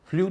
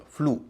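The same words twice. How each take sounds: First: फ्लू said as "flyoo"; wrong-example फ्लू, pronounced "flyoo"; mistaken y-glide. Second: फ्लू said as "floo", no y; correct oo sound. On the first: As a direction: add a y after the l in फ्लू. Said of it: "फ्लू नहीं होगा". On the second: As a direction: go straight from l to oo in फ्लू. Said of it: "उसका उच्चारण होगा फ्लू". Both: Shown as a demonstration.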